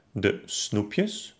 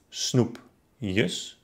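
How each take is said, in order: First: Said in the usual way. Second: Snoep-jes, split by a pause; snoepjes by syllables. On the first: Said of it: "Zum Beispiel". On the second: Shown as a demonstration. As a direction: break snoepjes after the p. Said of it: "trenne dann das Wort". (snoepjes in Silben gesprochen)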